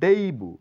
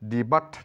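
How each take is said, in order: First: The word ends without a t sound. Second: The word ends with a t sound. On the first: The speaker calls it right. "এটা বলবো" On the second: The speaker calls it wrong. "নয়"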